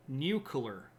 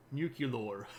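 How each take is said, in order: First: Said in the usual way. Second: "nuclear" with an extra u, said nyoo-kyoo-lor; British pronunciation. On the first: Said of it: "Nuclear is how you say it". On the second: Shown as a demonstration. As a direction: say "nuclear" the British way, slipping in the added u sound. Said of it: "you could do a British pronunciation".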